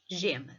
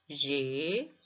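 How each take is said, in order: First: Said in the usual way. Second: GEMA split into two drawn-out syllables with a pause; divisão silábica. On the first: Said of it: "dividimos em sílabas". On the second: Shown as a demonstration. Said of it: "dividimos em sílabas e cada sílaba". ("gema" dito sílaba a sílaba, com pausa)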